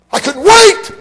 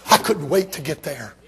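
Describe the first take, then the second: First: High, loud burst of eagerness; preacher shouting his eagerness to the crowd; sudden shout. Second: Said in the usual way. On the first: Acted. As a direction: blast it out with excitement.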